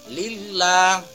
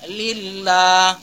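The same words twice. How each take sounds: The two takes are said the same way.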